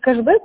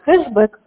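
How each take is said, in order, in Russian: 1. Слово начинается со звука k. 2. Слово начинается со звука h. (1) "вместо кэшбэк" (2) "говорит хэшбэк, хэш, на хэ"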